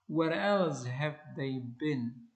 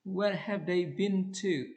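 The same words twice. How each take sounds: First: Else stressed with a falling tune, slow. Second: Said in the usual way. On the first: Shown as a demonstration. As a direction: lean on "else", then let it fall. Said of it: "So you have to say". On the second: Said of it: "These are incorrect statements".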